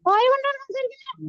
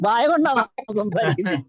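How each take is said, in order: First: It is said in the puppet's put-on voice. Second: It is said in the speaker's own voice.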